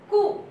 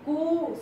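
First: The vowel is short and quick. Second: The vowel is drawn out and long. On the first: "Pronunciation will be fast" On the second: "that pronunciation little long we have to say"

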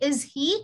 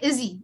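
First: The two words are said separately. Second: The two words are run together. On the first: The speaker calls it wrong. "Instead of saying is he" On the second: The speaker calls it right. "you will say is he"

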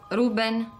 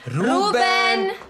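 First: The name is called softly and hesitantly. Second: The name is called loudly and firmly. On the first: "No, così, un pochino più forte" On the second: "Con decisione"

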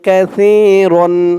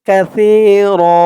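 First: The word ends with an n sound. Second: The word ends with a long a vowel. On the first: The recitation continues without stopping. "দুই জবর রন" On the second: The reciter stops at this word. "এখানে থামলে উচ্চারণ করবেন কাসীরা"

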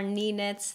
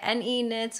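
First: NE is said as one syllable, knee. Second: NE is said as two separate letters. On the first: "I just find it easier to say Knee Knits" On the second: "the correct pronunciation of the name would be NE since it's an acronym"

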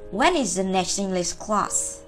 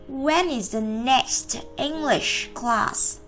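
First: The sentence is said quickly, words linked together. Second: The sentence is said slowly. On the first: "Còn khi chúng ta đọc nhanh" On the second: "Đó là chúng ta đọc chậm"

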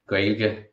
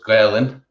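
First: The word ends with a 'g' sound. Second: The word ends with an 'n' sound. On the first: This is the common form used in most places. "So Gaeilge in most places" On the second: This is the local form used in one region. "but Gaelainn in Corca Dhuibhne"

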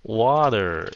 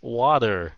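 First: The middle T sounds like a soft D. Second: The middle T sounds like a soft D.

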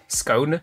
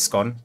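First: The vowel rhymes with cone. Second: The vowel rhymes with gone. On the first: This is the official pronunciation. "the official pronunciation is scone, S-cone" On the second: This is said to annoy people. "because when you eat them, they're gone, so it's scone"

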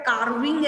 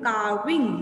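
First: The R sound is pronounced clearly. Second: The R sound is barely heard. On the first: The speaker calls it wrong. "But Carving ऐसे नहीं बोला" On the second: The speaker calls it right. "Here R is a silent"

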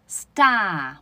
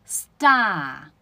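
No difference in how they are said.

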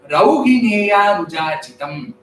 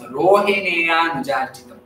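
First: The first syllable has the diphthong 'au'. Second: The first syllable has the plain vowel 'o'. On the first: It refers to the son of Rohini. The speaker calls it right. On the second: It gives a totally different meaning tied to the star Rohini. The speaker calls it wrong.

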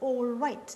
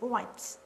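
First: Every sound of the phrase is said clearly. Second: The phrase is shortened with sounds dropped. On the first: "they don't say sometimes all right" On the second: "they say all right"

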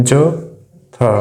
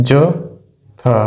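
The two takes are said the same way.

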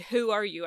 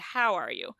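First: The vowel in how is raised toward oo. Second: The vowel in how is a plain open ow. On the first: "I'm pretty sure they don't say" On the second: "I'm pretty sure they say"

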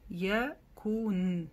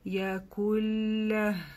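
First: The final n sound is clearly pronounced. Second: The n is dropped and merges into a doubled l. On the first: This is the form used when stopping. "Если отдельно мы здесь бы остановились, мы эту нун бы прочитали" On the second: This is the form used when continuing. "мы нун здесь не читаем, после ку мы сразу переходим на удвоение лям"

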